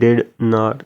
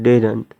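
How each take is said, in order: First: It is said as two separate full words. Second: It is said as one short contracted word. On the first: "These two word did not" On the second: "Then you pronounce like that one word didn't"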